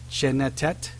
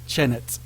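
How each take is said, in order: First: The final t syllable is sounded twice. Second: The final t syllable is sounded once. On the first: The speaker calls it wrong. "This should be chenetet. That's not how they actually, um, scholars actually pronounce this" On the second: The speaker calls it right. "We only say it one time"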